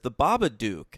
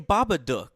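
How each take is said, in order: First: The last syllable rhymes with duke. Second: The last syllable rhymes with book. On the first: This is how most people said it. The speaker calls it wrong. "people were all referring to it as the Babadook" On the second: This is how the film itself says it. The speaker calls it right. "they consistently say Babadook"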